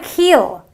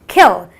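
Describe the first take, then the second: First: The vowel is long and drawn out. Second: The vowel is short and brief. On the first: The speaker calls it wrong. "It's not a kill" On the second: The speaker calls it right. "It is kill. ... it is a short, brief sound"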